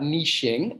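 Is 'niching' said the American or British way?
British. It is said with a British pronunciation. The speaker calls it right. "that is how you pronounce it"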